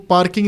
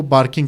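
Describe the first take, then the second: First: Said in the usual way. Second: بارکنگ with b replacing the p; Arabic speakers' pronunciation. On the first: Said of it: "وہ پارکنگ نہیں کہہ سکتے". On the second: Retold or imitated. Teacher showing how Arabic speakers say parking, b for p in بارکنگ. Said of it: "کیونکہ پے نہیں ہے ان کی زبان میں".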